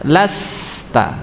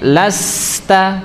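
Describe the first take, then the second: First: The s sound is drawn out and flowing. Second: The s sound is cut short. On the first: The speaker calls it right. "tapi dialirkan huruf sinnya" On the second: The speaker calls it wrong.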